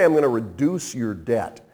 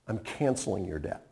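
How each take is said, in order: First: Said in the usual way. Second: Tender pardon. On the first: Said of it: "He doesn't say". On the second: Shown as a demonstration. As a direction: lay the pardon down gently. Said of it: "He says".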